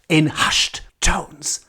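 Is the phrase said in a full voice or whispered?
whispered. The phrase is whispered very softly. "whispering like that"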